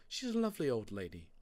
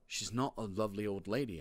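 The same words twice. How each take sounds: First: Quick, light motherly assurance; mum's voice. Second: Firm contradiction leaning on "not"; stress on not. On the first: Mum defending the librarian, quick assurance. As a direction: brush the fear aside as mum, quickly. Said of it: "said Mum". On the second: Boy contradicting his mum, stress on "not". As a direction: press down on "not" in rebuttal. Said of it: "I said". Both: A narrator's reading.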